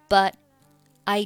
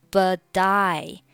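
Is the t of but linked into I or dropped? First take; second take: dropped; linked. First: The final t of but is not pronounced. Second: The t links into I, sounding like die. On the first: "你也可以选择but 末尾不发音" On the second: "连读成了but I but I，有点类似于die 的发音"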